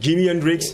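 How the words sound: The name is pronounced the English way. "façon euh, anglophone"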